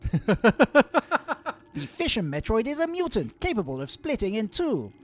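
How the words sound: It is read in a chirpy put-on voice.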